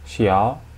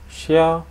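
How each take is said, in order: First: The pitch rises from mid to high. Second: The pitch stays high and level.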